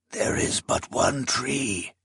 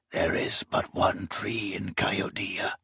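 First: Slow, soft, uncanny voice; as if someone else speaks through him; voice not his own. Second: Hushed eerie whisper. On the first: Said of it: "his voice not his own". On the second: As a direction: breathe it like a ghostly secret. Eerie prophetic quote recalled. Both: Acted.

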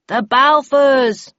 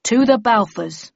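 First: Louder, higher, drawn-out answering toast; group toast response. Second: Raised-voice memorial toast; solemn toast. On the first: A narrator's reading. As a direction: echo the toast loudly and slowly. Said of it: "We all repeated". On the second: Acted. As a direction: propose a toast to the lost. Leader proposes toast to the dead.

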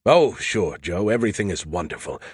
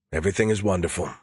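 First: Lively, swooping character voice; chatty AI companion. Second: Quick, low-key brush-off; dismissive echo. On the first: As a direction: breezily reassure a friend, pitch sliding down. Skippy eager to report, sleepy listener. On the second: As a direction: rattle it off fast to end the chat. Joe cuts Skippy off, wants sleep. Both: A narrator's reading.

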